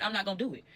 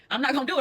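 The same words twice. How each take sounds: First: Soft and low, talking herself down; murmured to herself, calming down; quiet resolve. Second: "I'm not gonna do it." said firmer, rising at the end; firm resolve. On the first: Holding back from fighting her man, softly. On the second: Talking herself out of a fight, firmly. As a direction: repeat it with more push on "do". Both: Retold or imitated. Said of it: "But I said".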